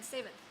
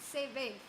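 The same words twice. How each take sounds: First: The stress is on the first syllable. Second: The stress is on the second syllable. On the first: This is the teacher's expected pronunciation. "rather than seventh" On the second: This reflects the child's home-language prosody. "putting the emphasis on the second part in seventh"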